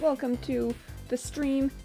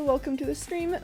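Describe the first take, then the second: First: It is said in a weird put-on voice. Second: It is said in his normal voice.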